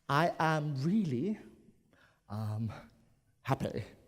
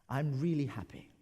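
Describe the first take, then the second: First: A hesitation filler comes before the word happy. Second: It is said smoothly with no filler sound. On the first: The speaker feels a bit sheepish. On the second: It is a plain statement.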